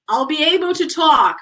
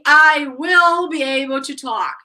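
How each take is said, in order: First: Will is joined to the pronoun as I'll. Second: Will is said in full as its own word. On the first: "in general, you are going to say, I'll" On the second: "you can say, I will be able to talk. It's okay"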